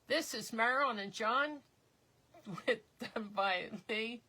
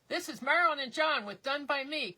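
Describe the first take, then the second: First: It is said in a plain, low-energy way. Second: It is said in a lively, enthusiastic way.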